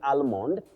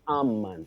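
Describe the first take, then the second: First: The L sound is pronounced. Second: The L sound is silent. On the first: The speaker calls it wrong. "You don't say almond from the spelling" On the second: The speaker calls it right. "you say almond. That L is silent"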